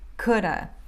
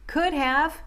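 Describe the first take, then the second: First: The words blend, 'have' reduced to 'uh'. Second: Both words are said fully and separately.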